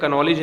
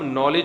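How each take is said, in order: First: The word starts with a k sound. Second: The word starts with an n sound. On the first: The speaker calls it wrong. "कनॉलेज नहीं होता" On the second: The speaker calls it right. "नॉलेज है, कनॉलेज नहीं होता"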